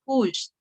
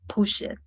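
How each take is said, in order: First: The ending adds no extra syllable. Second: The ending is said as an extra syllable. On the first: The speaker calls it right. "when it's a past, pushed" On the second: The speaker calls it wrong. "not necessary to say push it"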